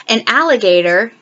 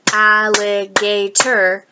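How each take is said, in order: First: Said in the usual way. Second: Alligator slow as al-li-ga-tor; clapped syllables. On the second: Shown as a demonstration. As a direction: clap out al-li-ga-tor slowly. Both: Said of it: "clap the syllables".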